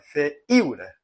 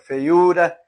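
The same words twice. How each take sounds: First: The stress falls on the 'i' syllable. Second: The stress falls on the 'u' syllable. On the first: The speaker calls it wrong. "Você não fala feiura" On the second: The speaker calls it right. "você fala feiura. Então, a, a tonicidade do U é mais forte"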